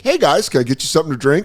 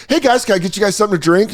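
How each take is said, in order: First: Higher-pitched chirpy waiter's opener; put-on customer-service lilt; waiter's greeting. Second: Fast, high-pitched server pitch; over-eager waiter addressing a table; waiter's greeting. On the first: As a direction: greet a table as their server. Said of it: "it's called the first approach". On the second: Acted. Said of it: "it was like four bros and I was like".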